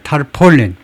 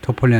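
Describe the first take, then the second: First: The first syllable has a longer 'tar' sound. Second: The first syllable has a short 'tuh' vowel. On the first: The speaker calls it right. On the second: The speaker calls it wrong. "터폴린 아니에요"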